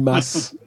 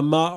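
First: The final s is pronounced. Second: The final s is silent. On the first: This is how locals say it. The speaker calls it right. "On dit masse" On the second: This is how outsiders say it. The speaker calls it wrong. "tous les Parisiens qui disent"

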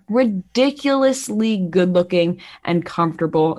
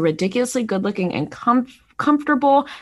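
First: 'Ridiculously' is said carefully with every syllable distinct. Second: 'Ridiculously' is said quickly with sounds run together. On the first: The speaker calls it right. "I just wanted to stop and really enunciate there" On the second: The speaker calls it wrong. "I feel like I've been saying ridiculously wrong"

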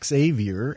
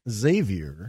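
First: The X is not sounded as a Z. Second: The X is sounded as a Z. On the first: The speaker calls it wrong. "It's not Xavier" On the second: The speaker calls it right. "the X is a Z"

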